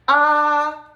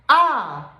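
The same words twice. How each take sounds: First: The pitch stays high and level. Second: The pitch falls sharply from high. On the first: "This is a flat tone" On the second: "This is the fourth tone"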